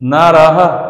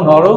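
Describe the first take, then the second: First: The word ends with an echoed 'ha' sound. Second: The word ends with no h sound. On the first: The speaker calls it right. "বিসর্গ থাকাতে হয়ের মতো উচ্চারণ হচ্ছে" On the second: The speaker calls it wrong. "বিসর্গ যে এখানে আছে ওর কোনো উচ্চারণ করছি না"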